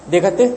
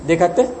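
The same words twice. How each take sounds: No difference in how they are said.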